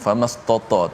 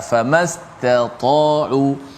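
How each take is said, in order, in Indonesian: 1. Kedua bunyi t diucapkan tebal dan berat. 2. Satu bunyi t tipis, yang satunya tebal. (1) "nampak ta tebal tu takut ta yang sebelumnya pun ditebalkan. Famastata tak boleh" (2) "kita berikan yang pertama ta famastata'u"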